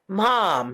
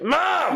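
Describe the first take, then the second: First: Said in a sweet, gentle tone. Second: Said in a harsh, impatient tone. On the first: The speaker calls it right. "I want you to say it nicely. Like you could be like" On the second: The speaker calls it wrong. "instead of like"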